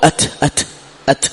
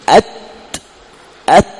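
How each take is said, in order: First: The breathy sound comes at once, without a stop. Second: A firm stop comes first, then a breathy release. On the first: The speaker calls it wrong. "مباشرة" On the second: The speaker calls it right. "أول تنطق بها الشديدة"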